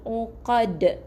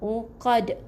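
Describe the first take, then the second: The two takes are said the same way.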